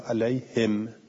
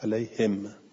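First: The word ends on a silent, vowelless m. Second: The same.

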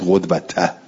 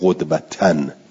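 First: The word ends without a final n sound. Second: The word ends with a final n sound. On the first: The word is meant as definite. The speaker calls it right. "بگید قدوته" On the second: The word is meant as indefinite. The speaker calls it wrong. "یعنی نگوید قدوتن"

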